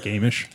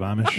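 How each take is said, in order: First: First "Amish" with a long A as in "day"; altered pronunciation. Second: Said in the usual way. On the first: Shown as a demonstration. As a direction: say "Amish" as AY-mish. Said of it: "Like Amish instead of Amish?". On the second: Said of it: "instead of Amish".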